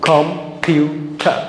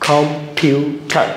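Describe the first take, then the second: Both takes have the same delivery.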